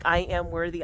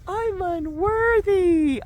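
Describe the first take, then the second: First: Said in the usual way. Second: High, slow crybaby whimper; whiny baby voice. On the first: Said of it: "rephrase it". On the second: Shown as a demonstration. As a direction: whine it like a crying baby. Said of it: "Now say it like a baby".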